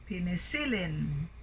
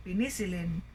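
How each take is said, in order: First: "penicillin" with stress on the third syllable, peniCILlin; correctly stressed penicillin. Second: "penicillin" said quickly with stress on the second syllable, peNIcillin; wrongly stressed penicillin. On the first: Teacher showing the proper way, peniCILlin. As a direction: hit CIL in penicillin. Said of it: "But penicillin". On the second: Teacher showing how not to say it, peNIcillin. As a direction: hit NI in penicillin. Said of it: "So we didn't say penicillin". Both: Shown as a demonstration.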